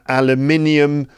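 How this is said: It is said with a British pronunciation. "in the U K"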